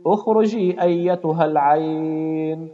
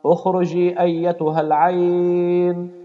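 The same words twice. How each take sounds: The two takes are said the same way.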